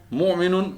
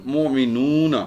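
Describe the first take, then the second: First: مومنون as "mu'minun", short final syllable; higher, brisk مومنون ending in a short "nun"; singular word form. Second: مومنون as "mu'minoona", long "oo" then "na"; teacher's مومنون with a held oo; oona plural ending. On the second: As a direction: stretch the "noo" in مومنون and add a light "na". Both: Shown as a demonstration. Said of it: "اونا کی sound ہے".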